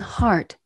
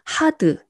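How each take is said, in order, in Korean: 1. "hard"는 한 음절로 발음해요. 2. "hard"는 두 음절로 발음해요. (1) "영어로는 hard, 이름절이에요" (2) "우리나라 말로 음을 표기하면 hard, hard 이음절이에요"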